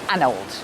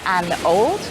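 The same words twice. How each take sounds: First: The two words are squeezed together into one beat. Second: The two words are said separately, each given length. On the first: The speaker calls it right. "we push those two words together" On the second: The speaker calls it wrong. "Instead of saying an old"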